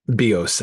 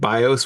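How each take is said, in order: First: It is said with a Greek pronunciation. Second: It is said with an English pronunciation. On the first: The speaker calls it right. "I think technically, of course" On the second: The speaker calls it wrong. "I'm used to pronouncing it in English"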